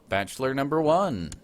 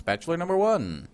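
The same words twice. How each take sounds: First: Lightly voiced game-show host, rising to the punchline. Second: Game show host. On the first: Gamer presenting his heir as on a dating show, mild host voice. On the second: Pretend. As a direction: sell it like a big TV host reveal, pitch climbing then falling. Game show host announcing contestant.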